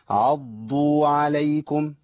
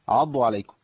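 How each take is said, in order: First: The ض sound is doubled and held. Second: The ض sound is short and single. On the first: The speaker calls it right. "لو اقراها صح بشكل صحيح" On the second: The speaker calls it wrong. "جت ضاد واحده بس"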